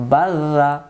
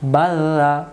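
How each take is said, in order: First: The middle consonant is single and soft. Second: The middle consonant is single and soft.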